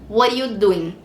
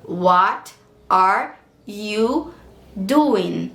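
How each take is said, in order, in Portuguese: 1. As palavras são ligadas e reduzidas juntas. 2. Cada palavra é dita separadamente e por completo. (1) "com o Connected Speech, com o Linking Sound" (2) "como é que eu vou falar essa frase no inglês?"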